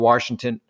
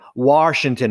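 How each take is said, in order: First: An R sound is added after the first vowel. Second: No R sound follows the first vowel. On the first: The speaker calls it wrong. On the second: The speaker calls it right.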